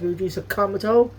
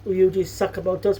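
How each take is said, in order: First: The name is said with English dub pronunciation. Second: The name is said with Japanese pronunciation. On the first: The speaker calls it wrong. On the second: The speaker calls it right. "they mispronounce a lot of Japanese names like"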